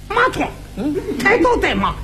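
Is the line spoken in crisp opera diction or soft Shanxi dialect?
Shanxi dialect. It is spoken in a soft Shanxi dialect accent. The speaker calls it wrong. "你要观音长出来这味儿，那还像京戏吗？"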